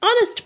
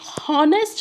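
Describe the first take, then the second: First: The word starts with a vowel, no h. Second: The word starts with an audible h sound. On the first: The speaker calls it right. "इसे हम ऑनेस्ट ऑनेस्ट पढ़ते हैं" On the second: The speaker calls it wrong. "इसे हम हॉनेस्ट नहीं पढ़ते हैं"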